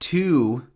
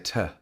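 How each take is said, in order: First: The word has a full vowel. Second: The word has a reduced schwa vowel. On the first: The speaker calls it wrong. "You don't say to" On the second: The speaker calls it right. "in British English we definitely say to"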